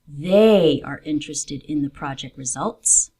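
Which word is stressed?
they. The word 'they' carries extra stress. These people, not another group, are interested. "I want to emphasize a particular group of people"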